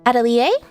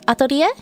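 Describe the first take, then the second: First: It is said with a non-Japanese pronunciation. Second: It is said with a Japanese pronunciation.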